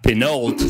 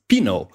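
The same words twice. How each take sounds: First: The name is said with an L sound. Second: The name is said without an L sound. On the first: The speaker calls it wrong. "not Pinot, like probably many Americans say" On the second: The speaker calls it right. "your last name is Pinot"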